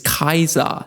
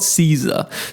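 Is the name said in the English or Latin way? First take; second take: Latin; English. First: The name is said the classical Latin way. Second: The name is said the usual English way. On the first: The speaker calls it right. "the correct Latin pronunciation is" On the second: The speaker calls it wrong.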